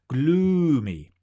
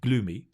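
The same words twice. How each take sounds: First: The long vowel is big and exaggerated. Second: The long vowel is small and unexaggerated. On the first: The speaker calls it right. "make your sounds big" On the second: The speaker calls it wrong. "don't say gloomy"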